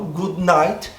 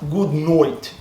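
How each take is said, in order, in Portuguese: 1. Night tem o som de vogal 'ai' com sotaque brasileiro. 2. Night tem o som de vogal 'oi' australiano. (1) "Eu falo good night e eles entendem" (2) "Eu não preciso falar good night"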